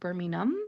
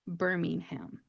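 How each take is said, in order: First: British pronunciation, with the h sound dropped. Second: American pronunciation, with the h sound pronounced. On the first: It names the city in England. "in England it is pronounced Birmingham, and they don't really make the H sound" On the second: It names the city in Alabama. "it's actually pronounced exactly how it's spelled"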